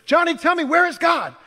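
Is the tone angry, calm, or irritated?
angry. It is asked in a loud, angry voice.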